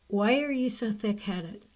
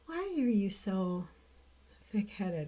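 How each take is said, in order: First: It is said in a harsh tone. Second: It is said in a gentle tone.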